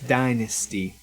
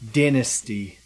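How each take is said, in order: First: It is said with a non-Australian pronunciation. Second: It is said with an Australian pronunciation. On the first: "Back home, it's" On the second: "That's how they say it in Australia"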